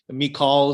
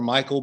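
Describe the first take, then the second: First: It is said with Hebrew vowel sounds. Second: It sounds like the English name Michael. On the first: The speaker calls it right. "Michal is more appropriate" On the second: The speaker calls it wrong. "I'll just call her Michael"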